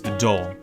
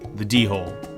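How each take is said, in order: First: The D is plain, with no puff of air. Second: The D is aspirated, with a puff of air.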